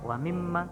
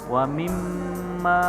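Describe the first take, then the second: First: The doubled m is said quickly without holding. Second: The doubled m is held with a long nasal hum. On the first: The speaker calls it wrong. "kalian nggak boleh baca wa mimma" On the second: The speaker calls it right. "Jadi harus mimma ditahan dulu dua harokat"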